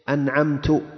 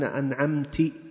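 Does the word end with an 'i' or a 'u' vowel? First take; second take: u; i. First: The word ends with a final 'u' vowel. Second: The word ends with a final 'i' vowel. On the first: The speaker is the one who bestowed favor. "متكلم" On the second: A female is the one who bestowed favor. "خطاب مؤنث"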